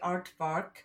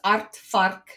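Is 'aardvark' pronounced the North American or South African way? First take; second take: North American; South African. First: The word is said with a North American pronunciation. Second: The word is said with a South African pronunciation. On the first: The speaker calls it wrong. "when I hear North Americans say aardvark" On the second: The speaker calls it right. "as South Africans, ... it's aardvark"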